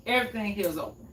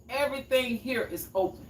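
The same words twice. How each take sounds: First: Quick repeat. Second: Said in the usual way. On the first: Shown as a demonstration.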